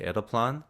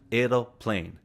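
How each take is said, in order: First: The word ends with a short 'plan' sound. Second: The word ends with an English-like 'plane' sound. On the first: This is the usual everyday word. "we usually say aeroplan" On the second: This is a made-up, mixed-up word. "a mixed-up English pronunciation, a word I made up"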